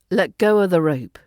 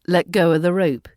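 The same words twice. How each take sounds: First: The word 'of' is reduced to a schwa. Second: The word 'of' is reduced to a schwa.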